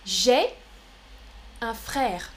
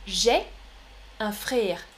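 First: Frère with an open è, as in père; correct open è. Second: Frère with a closer é in place of open è; "frère" mispronounced with a tighter vowel; altered vowel. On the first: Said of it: "la prononciation". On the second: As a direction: narrow the vowel in "frère" towards é. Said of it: "L'accent est un peu différent". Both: Shown as a demonstration.

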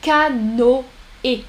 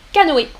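First: "Canoë" broken into ca, no, é with pauses; syllables separated. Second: Said in the usual way. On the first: Shown as a demonstration. Teacher showing what the tréma does, "Canoë" syllable by syllable. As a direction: spell out "Canoë" by ear, one syllable at a time. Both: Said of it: "le O et le E séparément".

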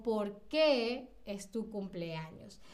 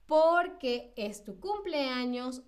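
First: Slow, lower, weight on "qué"; two words, drawing out "qué"; question form. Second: Slow "Por qué" as one word, stressed on "Por"; answer form. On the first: Teacher offers quiz option, weighted "qué". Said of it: "tiene como este peso". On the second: Teacher offers quiz option, unweighted "qué". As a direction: lean on "Por", keep "qué" light. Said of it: "Aquí estamos dando la explicación". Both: Shown as a demonstration.

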